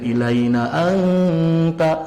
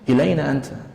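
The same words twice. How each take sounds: First: The vowels are stretched out long, recitation-style. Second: It is said quickly with ordinary question intonation. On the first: The speaker calls it wrong. "tidak usah dipanjangkan ... tak usah dikitu-kitu" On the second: The speaker calls it right. "hanya sebatas dengan intonasi yang biasa, dengan kalimat tanya"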